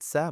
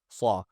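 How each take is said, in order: First: The syllable sounds light, with a thin vowel. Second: The syllable sounds heavy, with a full dark vowel. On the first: The speaker calls it wrong. "not sa" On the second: The speaker calls it right. "but saw saw"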